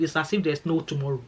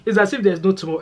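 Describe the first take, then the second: First: Said in the usual way. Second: Higher and louder, punching "as if" in "It's as if there's no tomorrow"; emphatic repeat. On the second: Real, not acted. Vlogger marvelling at Scottish weekend partying, higher and louder. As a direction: repeat it big, like you can't believe it.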